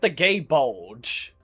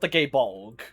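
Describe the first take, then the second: First: The name ends with a soft J sound. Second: The name ends with a hard G sound. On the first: The speaker calls it wrong. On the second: The speaker calls it right.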